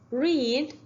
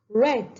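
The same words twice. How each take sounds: First: It is said as the present-tense form. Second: It is said as the past-tense form. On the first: The action happens now. "What about read?" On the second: The action happened before. "same spelling but with different pronunciation"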